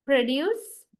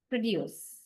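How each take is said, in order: First: Produce as a noun, PRO-duce, first syllable stressed. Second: Produce as a verb, pro-DUCE, second syllable stressed; weight on DUCE in produce, falling away. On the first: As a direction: punch PRO in Produce, ending on a rise. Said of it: "used as a noun when you". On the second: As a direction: produce with end stress, pitch dropping. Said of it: "if you stress the latter part". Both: Shown as a demonstration.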